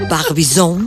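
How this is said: It is said with a French pronunciation. "Pero en francés sería"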